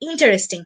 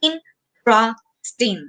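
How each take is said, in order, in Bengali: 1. শব্দটি চার সিলেবলে বলা হয়। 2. শব্দটি তিন সিলেবলে বলা হয়। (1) "আমরা এটাকে মোস্ট অফ দ্য টাইম এভাবে প্রোনাউন্স করে থাকি" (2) "তিনটা সিলেবল আছে"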